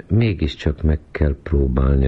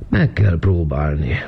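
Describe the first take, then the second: First: Said in the usual way. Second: Slow, higher-pitched yawned reply; sleepy echo stretched by a yawn. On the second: A narrator's reading. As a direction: yawn right through the words. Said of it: "ásított Vizi".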